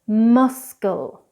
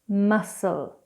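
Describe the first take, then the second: First: The c is pronounced as a k sound. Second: The c is silent with no k sound. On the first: The speaker calls it wrong. "the incorrect pronunciation first" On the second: The speaker calls it right. "then I'll do the correct pronunciation"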